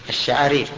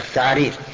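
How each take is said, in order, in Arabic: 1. الحرف الأساسي هو صوت الشين. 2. الحرف الأساسي هو صوت الثاء. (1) "يقول الشعارير" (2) "أي كأنه نطق بها هكذا"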